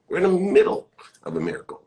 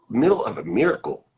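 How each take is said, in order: First: Fast, higher breathy whisper. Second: Said in the usual way. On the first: Shown as a demonstration. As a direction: hush it like a secret. Repeats phrase as a whisper.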